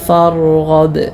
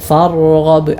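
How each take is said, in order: Both takes have the same delivery.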